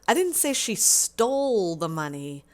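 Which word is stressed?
stole. The stress is on the word stole.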